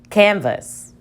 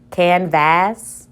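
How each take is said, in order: First: The second vowel is reduced to a schwa. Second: The second vowel is a full short vowel. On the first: The speaker calls it right. "Let's try it with the schwa" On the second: The speaker calls it wrong. "Let's try it as a short vowel"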